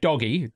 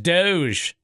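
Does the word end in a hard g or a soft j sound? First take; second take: hard g; soft j. First: It ends with a hard g and an ee. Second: It ends with a soft j sound. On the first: The speaker calls it wrong. "we were confused by that for a while" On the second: The speaker calls it right. "we had to learn it. It was Doge"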